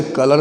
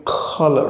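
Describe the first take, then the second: First: Said in the usual way. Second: कलर said as खलर, aspirated kh at the start; English colour with kh. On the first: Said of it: "हम लोग आसानी से कलर पढ़ते हैं". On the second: Shown as a demonstration. Teacher showing how the English say कलर with a kh. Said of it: "क को वो ख ही पढ़ते हैं".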